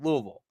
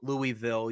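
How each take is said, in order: First: The name is said the way locals say it. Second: The name is said the way outsiders say it. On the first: The speaker calls it right. "you call it Louisville" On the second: The speaker calls it wrong. "you don't call it Lou- Louisville"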